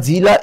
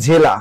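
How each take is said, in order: First: জিলা said with a clear "i" in the first syllable, as the mistake; জিলা pronounced "dʑila", first vowel i; wrong form. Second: জেলা said with an "e" in the first syllable, as the right word; জেলা pronounced "dʑela", first vowel e; correct form. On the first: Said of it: "জিলা এটা ভুল শব্দ". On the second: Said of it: "হবে জেলা". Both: Shown as a demonstration.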